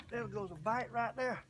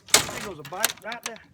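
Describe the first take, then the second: First: Said in the usual way. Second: Excited call. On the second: Real, not acted. Spots a bite while fishing.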